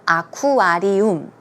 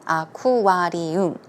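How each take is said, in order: First: It is said with a Korean-style pronunciation. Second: The same.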